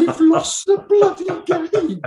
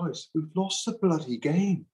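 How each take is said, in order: First: Much higher and louder, slow, bloody hammered; exasperated yell. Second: Higher, frustrated plea to the stats-minded; a fed-up coach cutting through numbers; exasperated coach. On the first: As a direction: yell it in disbelief at the stats. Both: Retold or imitated. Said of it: "And you go".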